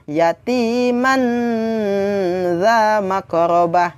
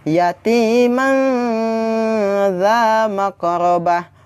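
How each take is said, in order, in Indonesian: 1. Bunyi n-nya diucapkan dengan jelas dan penuh. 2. Bunyi n-nya samar dan didengungkan, tidak diucapkan penuh. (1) "Bukan ... Itu jelas salah" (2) "harus dengan bacaan yang seperti ini"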